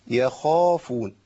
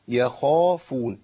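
The two takes are said the same way.

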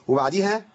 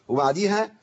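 Both takes have the same delivery.

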